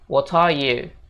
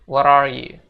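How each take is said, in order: First: The t in 'what' is released clearly. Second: The t in 'what' sounds like a d. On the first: "Jadi T-nya dibaca jelas gitu" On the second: "mereka bakal bilang T itu jadi seolah-olah huruf D"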